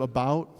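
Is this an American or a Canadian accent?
American. It is said in an American accent with a lower vowel. "instead of about"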